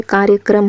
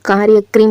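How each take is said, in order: First: कार्यक्रम said as 'kaarya-kram'; short 'a' in the last syllable of कार्यक्रम; corrected pronunciation. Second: कार्यक्रम said as 'kaarya-krim'; mispronounced word. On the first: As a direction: say कार्यक्रम ending in 'kram'. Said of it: "क्या होता है". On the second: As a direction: put an 'i' in the last syllable of कार्यक्रम. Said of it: "नहीं होता". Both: Shown as a demonstration.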